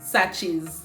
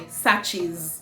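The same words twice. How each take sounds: Both takes have the same delivery.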